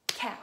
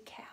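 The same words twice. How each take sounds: First: "Cow" as one very loud beat; clapped-out syllable. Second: Said in the usual way. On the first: Shown as a demonstration. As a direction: punch "Cow" hard in a single clap. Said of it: "we're gonna clap out some syllables". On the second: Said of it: "let's do cow".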